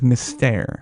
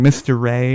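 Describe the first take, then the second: First: It is said with a French pronunciation. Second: It is said as two words, mister ray. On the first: This is the name as the show uses it. The speaker calls it right. "Cirque du Soleil is primarily French, in pronunciation" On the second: Customers tried to say the French name. The speaker calls it wrong. "they made a valiant effort with Mister Ray"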